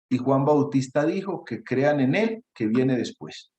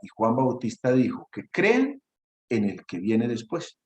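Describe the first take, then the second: First: A pause follows 'él', which is stressed. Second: 'En el que' runs on without a pause. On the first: Believe in him, who comes after. The speaker calls it wrong. "Alguna vez alguno leyó" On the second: Believe in the one who comes after. The speaker calls it right. "lo que decía el texto era"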